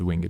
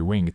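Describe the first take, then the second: First: The word is said in an old-fashioned way. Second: The word is said the everyday modern way. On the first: The speaker calls it wrong. "Winged is a very kind of a old English way of saying it" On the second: The speaker calls it right. "Sorry, winged"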